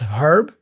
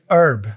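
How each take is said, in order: First: The word begins with an audible H sound. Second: The word begins with a vowel, no H. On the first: "It's okay to pronounce herb" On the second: "without the H"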